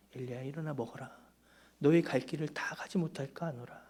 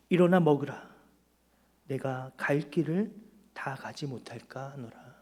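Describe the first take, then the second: First: Tender voice of God. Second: Voice of God. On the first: God's words restated tenderly to Elijah. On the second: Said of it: "하나님 우리에게 말씀하세요". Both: Acted.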